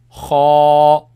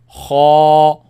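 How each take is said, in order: First: The sound is heavy and kept inside the mouth. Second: The sound is heavy and kept inside the mouth.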